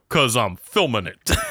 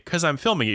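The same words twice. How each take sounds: First: It is said in a put-on Brooklyn accent. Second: It is said in a neutral, unmarked accent. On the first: "You go, ... suddenly you're from Brooklyn" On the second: "You don't say"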